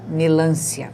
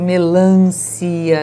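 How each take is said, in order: First: The stress falls on the syllable lan. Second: The stress falls on the syllable ci. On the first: The speaker calls it wrong. "se fosse, a pronúncia seria melância" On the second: The speaker calls it right. "o si é a sílaba forte"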